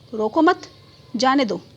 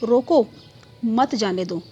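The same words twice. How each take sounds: First: The pause comes right after 'mat'. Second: The pause comes right after 'roko'.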